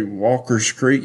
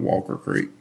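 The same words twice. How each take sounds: First: Walker's with an added s; local pronunciation. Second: Said in the usual way. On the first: Shown as a demonstration. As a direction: say "Walker's Creek" with the possessive s. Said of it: "only one that says Walker's Creek". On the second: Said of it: "if you hear somebody say".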